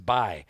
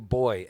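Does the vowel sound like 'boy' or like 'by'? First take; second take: By; Boy. First: The vowel sounds like the 'eye' sound. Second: The vowel is the plain 'oy' sound. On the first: "but it's by" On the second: "they call you boy"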